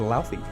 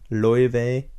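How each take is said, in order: First: The name is said with an anglicized pronunciation. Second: The name is said with an Icelandic pronunciation. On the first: The speaker calls it wrong. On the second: The speaker calls it right.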